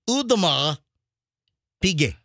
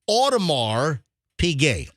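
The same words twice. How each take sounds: First: It is said with a French accent. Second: It is said with an American accent. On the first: "if you want the proper French pronunciation" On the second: "Now Americans will say"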